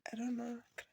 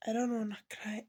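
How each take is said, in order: First: Tearful, softer. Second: Tearful whisper. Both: Real, not acted.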